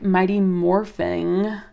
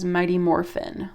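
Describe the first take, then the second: First: The second word ends with a g sound. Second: The second word ends without a g sound.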